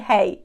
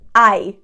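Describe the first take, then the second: First: It sounds like "hey", starting with an h. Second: It sounds like "eye", with no h sound. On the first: The speaker calls it wrong. "don't say hey" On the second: The speaker calls it right. "Just the way you pronounce I, we pronounce this one I"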